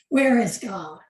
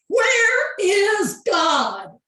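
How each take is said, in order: First: It is said sternly at moderate loudness. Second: It is said loudest, almost shouted.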